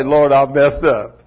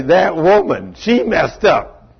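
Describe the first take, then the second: First: Said in the usual way. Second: Whining blame. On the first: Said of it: "never did Adam say". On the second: Retold or imitated. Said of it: "he found it easy to say".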